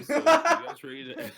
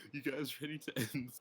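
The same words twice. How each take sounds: First: Laughing, high and loud, barely getting the words out; laughing while asking. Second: Said in the usual way. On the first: Real, not acted. Streamer asking friends to end the stream, cracking up. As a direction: giggle through the question.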